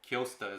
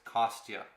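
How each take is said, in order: First: The name begins with 'Kyo' and ends 'sta'. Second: The name begins with 'Kos' and ends 'tya'. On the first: The speaker calls it wrong. "I always say it wrong. Kyosta is what I always say" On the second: The speaker calls it right. "but it's Kostya"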